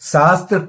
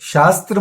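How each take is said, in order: First: The word begins with an 's' sound. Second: The word begins with a 'sh' sound. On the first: The speaker calls it right. "से से बोलिए। से से सुमन वाला से" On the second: The speaker calls it wrong. "शय शलगम वाला मत बोलिए"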